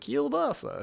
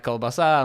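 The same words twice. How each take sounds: First: Kielbasa with a soft ky onset, kyool-BA-sa; Polish pronunciation. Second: Kolbasa with a plain hard k, kol-ba-SA; Russian pronunciation. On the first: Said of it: "the Polish is". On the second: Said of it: "the Russian is". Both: Shown as a demonstration.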